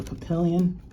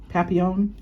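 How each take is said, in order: First: "Papillon" anglicized as puh-PILL-yun; unsure French pronunciation. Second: "Papillon" as pap-ee-OWN, silent Ls, rising; attempted French pronunciation. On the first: Vlogger struggling with French, "Papillon" as puh-PILL-yun. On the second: Vlogger retrying French, "Papillon" as questioning pap-ee-OWN. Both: Real, not acted. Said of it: "me and French don't get along".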